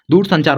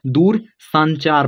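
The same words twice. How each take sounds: First: दूर संचार with a short a in san; correct reading. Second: Slow दूर संचार, first syllable of संचार as saan; learner's misreading. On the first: Teacher giving students the right reading, short san in संचार. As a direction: say संचार as san-chaar, first vowel short. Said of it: "दूर संचार होता है". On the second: Teacher imitating a student's wrong reading, slow long-vowel संचार. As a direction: read दूर संचार slowly with a long aa after s. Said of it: "मान लो आपने गलत सही पढ़ा". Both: Shown as a demonstration.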